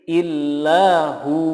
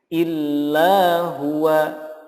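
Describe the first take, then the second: First: The phrase ends on a lengthened hu. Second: The phrase ends with the full syllables huwa. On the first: The reader stops on this word. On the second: The reading continues without stopping.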